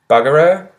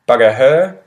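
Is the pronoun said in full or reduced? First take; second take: reduced; full. First: The pronoun is said in a shortened form. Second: The pronoun is said in its full form.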